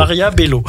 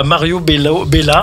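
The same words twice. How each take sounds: First: MARIA with an A, BELLO with an O, higher; corrected name. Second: MARIO with an O, BELLA with an A; wrong name. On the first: Co-host corrects himself after the slip, corrected Maria Bello. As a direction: end Maria on "a", Bello on "o", amused. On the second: Co-host cites his own slip, wrong endings on Mario and Bella. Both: Shown as a demonstration. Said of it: "Pas Mario Bello, Bella".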